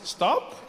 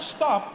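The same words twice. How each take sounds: First: It is said as a tentative suggestion. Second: It is said as a firm command.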